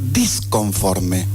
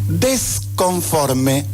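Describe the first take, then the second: First: The word begins with the syllable dis. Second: The word begins with the syllable des. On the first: The speaker calls it right. "en lugar de decir disconforme" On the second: The speaker calls it wrong. "desconforme en lugar de decir disconforme"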